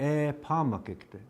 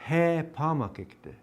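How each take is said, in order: First: E pamakikte with a bare vowel start, no h; Dakota pronunciation. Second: He pamakikte with a breathy h at the start; Dakota pronunciation. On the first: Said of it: "see how the difference is?". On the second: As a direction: put a clear h on He pamakikte. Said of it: "see the difference?". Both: Shown as a demonstration.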